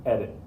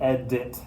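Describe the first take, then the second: First: Flick the d lightly in "edit"; natural flapped edit. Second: "edit" with a full hard D, ed-DIT; overpronounced edit. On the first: Teacher linking English to Spanish R, light tongue tap. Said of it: "It's the exact same sound". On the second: Teacher showing what nobody says, overarticulated D. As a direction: split "edit" and hit the D firmly. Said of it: "not really fully pronouncing the D". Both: Shown as a demonstration.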